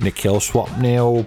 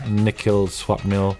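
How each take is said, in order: First: It is said in a put-on British-style voice. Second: It is said in his normal voice.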